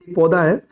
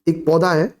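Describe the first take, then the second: Both takes have the same delivery.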